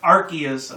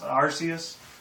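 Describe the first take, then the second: First: The middle consonant is a k sound. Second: The middle consonant is an s sound. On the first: The speaker calls it wrong. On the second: The speaker calls it right.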